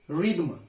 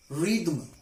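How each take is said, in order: Both takes have the same delivery.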